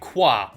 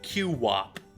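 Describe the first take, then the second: First: The name is said as one syllable. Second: The Q is spoken as a separate letter.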